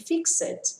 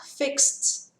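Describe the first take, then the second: First: The ending is an extra syllable. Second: The ending is just a t sound. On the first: The speaker calls it wrong. "Eu ouço as pessoas dizerem fixed, porque não conhecem essa regrinha" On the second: The speaker calls it right. "Som de T"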